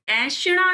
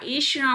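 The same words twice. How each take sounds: First: ऐषणा said "ai-shnaa"; wide first vowel on ऐषणा; wrong first vowel. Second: ऐषणा said "ey-shnaa"; correct first vowel. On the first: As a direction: open "ai" at the start of ऐषणा. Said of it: "ऐषणा नहीं होता". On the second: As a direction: close "e" at the start of ऐषणा. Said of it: "ऐषणा होता है". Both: Shown as a demonstration.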